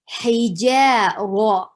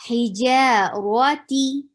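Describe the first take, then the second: First: Hija raw slowly, ra like English raw; heavy raw. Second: Hija raw T slowly, ra heavy, ti with long ee; slow Hija raw ti, ra dark. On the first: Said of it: "say raw". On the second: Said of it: "T again, double E sound". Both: Shown as a demonstration.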